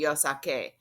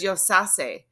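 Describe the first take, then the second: First: The consonant before the final vowel is a K sound. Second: The consonant before the final vowel is an S sound. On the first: The speaker calls it right. "we got the k, that hard C sound" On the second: The speaker calls it wrong. "it's a soft C sound in Spanish. So now this says yosase"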